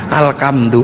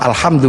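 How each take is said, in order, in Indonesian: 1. Konsonan di tengah itu bunyi k. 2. Konsonan di tengah itu bunyi h. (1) "gak punya huruf ha, maka alhamdu menjadi alkam" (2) "alhamdu menjadi"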